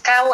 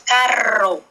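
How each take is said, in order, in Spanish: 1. La consonante del medio es el sonido B. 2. La consonante del medio es una R vibrante. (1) "No es cabo" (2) "es carro. R, carro"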